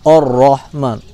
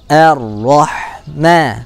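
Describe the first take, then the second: First: The first vowel is dark and rounded. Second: The first vowel is light and spread. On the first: The speaker calls it wrong. "jangan or-rahman" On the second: The speaker calls it right. "tapi tipis. Senyumkan a"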